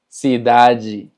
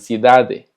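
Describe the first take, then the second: First: The final syllable sounds like 'ji'. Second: The final syllable sounds like a plain 'de'. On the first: "se pronuncia ji" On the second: "o que digan cidade"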